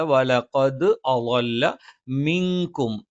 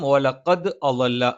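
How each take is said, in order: First: വലഖദ് അളല്ല chanted slowly, the ദ completed and the ള clear; correct recitation. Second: വലഖദ് അളല്ല with the ള sound off, said plainly; wrong pronunciation. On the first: Teacher giving the correct അളല്ല, slow and chanted. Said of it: "ദ ഇത് പൂർത്തീകരിച്ച് ഉച്ചരിക്കണം". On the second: Teacher showing students the wrong അളല്ല, spoken plainly. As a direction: show the mistaken അളല്ല, not recited. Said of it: "എന്നല്ല". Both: Shown as a demonstration.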